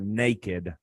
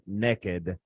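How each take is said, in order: First: It is said without a Southern accent. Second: It is said in a Southern accent.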